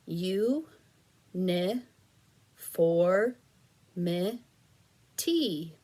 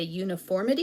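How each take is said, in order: First: "U, ni, for, mi, ti" said as separate syllables with pauses; chopped into syllables for blending; syllables apart. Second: "uniformity" run together fast as one word; fast blended word after the syllables; blended quickly. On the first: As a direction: give each syllable alone, pausing between. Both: Shown as a demonstration. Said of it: "push them together".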